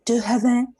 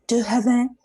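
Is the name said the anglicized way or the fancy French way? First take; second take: French; French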